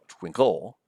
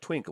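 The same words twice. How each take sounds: First: The stress is on the second syllable. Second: The stress is on the first syllable. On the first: The speaker calls it wrong. "We don't say" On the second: The speaker calls it right. "The stress is here on the first syllable"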